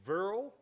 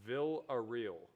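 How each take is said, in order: First: The name is mangled and cut short. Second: The name is said with all its syllables. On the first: The speaker calls it wrong. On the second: The speaker calls it right.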